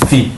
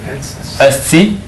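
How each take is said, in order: First: The word is clipped to one syllable. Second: The word is said in full, two syllables. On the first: "And you'd also shorten it" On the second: "but really when you pronounce it"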